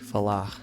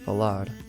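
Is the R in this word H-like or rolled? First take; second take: H-like; rolled. First: The R sounds like a breathy H. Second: The R is rolled with a trill. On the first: The speaker is from Rio. "In Rio, their R's sound like an H sound" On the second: The speaker is from the south. "In the south, ... they roll their R's"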